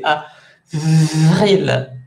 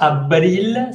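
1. La consonne du milieu fait le son V. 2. La consonne du milieu fait le son B. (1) "C'est avril. Avec un V" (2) "c'est pas avril"

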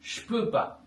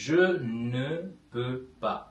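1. 'ne' என்ற சொல் விடப்படுகிறது. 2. ne உட்பட ஒவ்வொரு சொல்லும் உச்சரிக்கப்படுகிறது. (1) "பேச்சு வழக்கில்" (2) "முழுமையாக வாசித்தால்"

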